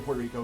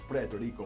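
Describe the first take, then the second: First: It is said with an American English pronunciation. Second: It is said with a Spanish pronunciation. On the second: "it's Puerto Rico"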